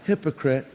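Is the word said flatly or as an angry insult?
flatly. It is said flatly, without feeling.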